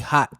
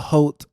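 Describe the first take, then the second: First: The vowel sounds like the one in 'hot'. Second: The vowel sounds like the one in 'oat'. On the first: This is how the owner says it. "I guess she pronounces it hot" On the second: This is how the speaker had been saying it. "I was calling it a Hote cookie"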